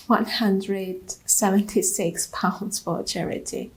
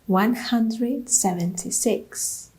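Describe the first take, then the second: First: Said in the usual way. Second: "One hundred seventy-six" said slowly, stress on "hundred", rising at the end; slow disbelieving repeat. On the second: Shown as a demonstration. A runner repeats her meagre charity total, slow and deflated. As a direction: let the number sink in, deflated.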